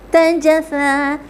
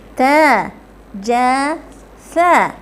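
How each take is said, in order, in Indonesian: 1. Suku katanya diucapkan cepat, menyatu. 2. Suku katanya diucapkan lambat dan terpisah-pisah. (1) "Sebut dengan cepat"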